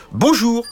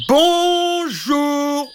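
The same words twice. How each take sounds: First: Tiny knight greeting. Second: Tiny knight calling. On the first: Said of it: "fit le petit chevalier". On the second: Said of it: "re-, refit le petit chevalier". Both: Acted.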